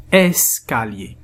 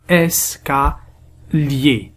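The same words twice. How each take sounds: First: "Escalier" slowly, syllables closer together; slow joined reading. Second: "Escalier" very slowly as es, ca, lier; syllable by syllable. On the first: Teacher reading the divided word, "Escalier" slow and more connected. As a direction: join "Escalier" back up, still slow. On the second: Teacher dividing words into syllables, "Escalier" slowly split. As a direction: break "Escalier" into three separated syllables. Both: Shown as a demonstration. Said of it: "nous allons les diviser en syllabes".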